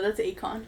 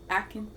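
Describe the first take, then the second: First: The second syllable sounds like 'on'. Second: The second syllable sounds like 'in'. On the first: The speaker calls it right. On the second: The speaker calls it wrong.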